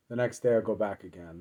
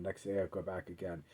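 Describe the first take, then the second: First: Said in the usual way. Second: Softer, faster, trailing away; last echo of a monotonous routine; fading refrain. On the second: Shown as a demonstration. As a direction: let the repeat fade out, a little quicker. Third repetition, near trailing off.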